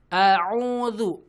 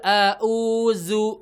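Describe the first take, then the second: First: The word ends with a dh sound. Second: The word ends with a z sound. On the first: The speaker calls it right. "Pastikan hamzah ain zal" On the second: The speaker calls it wrong. "Hamzah hamzah zai gitu kan ya. Keliru"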